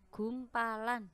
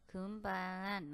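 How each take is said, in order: First: Careful, slow "gumpalan"; clear articulation. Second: "gumpalan" swallowed into "gumpan"; slurred. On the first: Teacher showing students the clear way to say "gumpalan". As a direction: say "gumpalan" slowly, every syllable clear. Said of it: "ya harus jelas". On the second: Teacher showing students the wrong, slurred "gumpalan". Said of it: "jangan seperti itu". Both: Shown as a demonstration.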